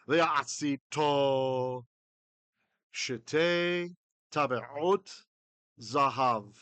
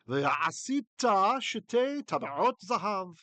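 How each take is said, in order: First: It is read at an ordinary, moderate speed. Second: It is read at a quicker, brisker speed. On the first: "read through one more time at a normal pace" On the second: "at a more brisk pace"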